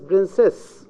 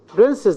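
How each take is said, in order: First: The stress is on the second syllable. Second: The stress is on the first syllable. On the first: "in isolation, it is princess, the second syllable" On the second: "I move the stress to the beginning of the word princess"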